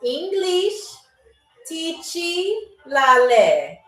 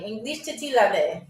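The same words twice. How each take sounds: First: Very slow, long pauses between words; slow, deliberate phrase demonstration; really slow. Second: Said in the usual way. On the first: Shown as a demonstration. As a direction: stretch each word out for learners. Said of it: "I'm gonna say it really slow". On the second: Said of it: "that's a tongue twister".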